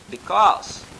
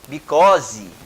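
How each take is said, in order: First: The ending is weak with no added vowel. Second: The ending is strong with an added vowel. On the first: The speaker calls it right. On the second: The speaker calls it wrong.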